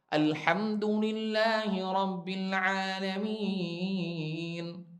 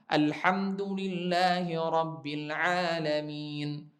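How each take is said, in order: First: The long vowels are held for a longer count. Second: The long vowels are held for a short count.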